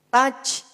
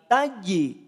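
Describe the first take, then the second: First: The final j sounds breathy, like a ch. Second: The final j is strong with a bouncing release. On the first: The speaker calls it wrong. "jangan sampai terdengar seperti mengucapkan huruf C" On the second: The speaker calls it right. "Dia punya karakter yang kuat. Ya, qalqalahnya"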